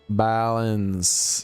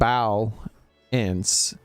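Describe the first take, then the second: First: The word is said smoothly as one rolling unit. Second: The word is broken into two separate syllables. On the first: "It's one of those syllables that kind of like rolls" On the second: "it's not it's not bow ants"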